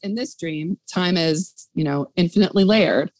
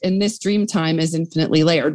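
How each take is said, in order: First: There is a pause after 'dream'. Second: There is no pause after 'dream'.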